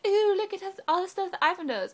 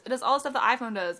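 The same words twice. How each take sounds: First: High, loud mocking show-off voice; mock awe. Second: Said in the usual way. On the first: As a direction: gush in fake amazement, pitched up. Mimics impressed Android owners.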